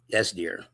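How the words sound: It is said as a low grumble.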